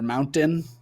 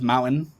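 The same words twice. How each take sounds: First: The T in the middle is clearly pronounced. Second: The T in the middle is soft. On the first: The speaker calls it wrong. "You're not supposed to say the T. I would always say mountain" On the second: The speaker calls it right. "You say it with a soft T"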